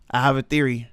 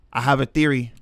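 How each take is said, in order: Both takes have the same delivery.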